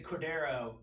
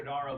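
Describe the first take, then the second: First: Cordero said with an open e sound. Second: Cordaro said with an ah sound. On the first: To a co-host, contrasting two spellings, says Cordero with e. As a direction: say Cordero, the e version. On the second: To a co-host, contrasting two spellings, says Cordaro with a. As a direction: say Cordaro, the a version. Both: Shown as a demonstration. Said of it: "you could do Cordaro".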